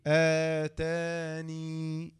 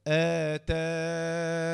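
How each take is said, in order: First: آتاني drawn out very slowly, ending on a long ya; stop on the ya. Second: آتان drawn out very slowly, ending on a still nun; stop on the nun. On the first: Teacher shows second way to stop on the word, very slow. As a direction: stretch آتاني and close on the long ya. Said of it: "وممكن تقف عليها إيه؟". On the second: Teacher shows first way to stop on the word, very slow. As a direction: stretch the alif in آتان and stop on silent nun. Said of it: "نون ساكنة عند الوقف". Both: Shown as a demonstration.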